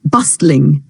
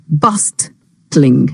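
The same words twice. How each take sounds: First: Said in the usual way. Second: "bustling" broken in two, bust... tling; syllable by syllable. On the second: Shown as a demonstration. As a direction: say "bustling" slowly, pausing before the last syllable. Word repeated split into syllables. ("bustling" کو توڑ کر، ٹھہر ٹھہر کے)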